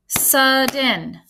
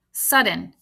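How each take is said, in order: First: "Sudden" drawn out in two beats; "Sudden" syllable by syllable, both clearly sounded; split into syllables. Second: Said in the usual way. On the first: Shown as a demonstration. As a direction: stretch "Sudden" into sud and den. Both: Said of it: "I counted two claps in the word sudden".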